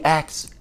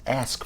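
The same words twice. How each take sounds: First: "ask" with the k before the s, "aks". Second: Said in the usual way. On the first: Real, not acted. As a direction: say "ask" like "axe". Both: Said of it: "ask for a better way".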